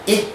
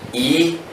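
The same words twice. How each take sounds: First: The vowel sound is held briefly. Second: The vowel sound is held longer.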